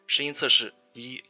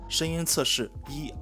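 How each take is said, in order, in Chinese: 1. 声音经过处理，听起来更清澈、更甜美。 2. 声音未经处理，保持自然音色。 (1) "女声模式…可以让声音更清澈和甜美" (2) "首先白色是默认的普通音色"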